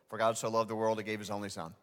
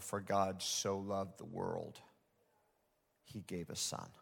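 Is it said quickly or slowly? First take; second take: quickly; slowly. First: It is said quickly and casually. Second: It is said slowly and deliberately.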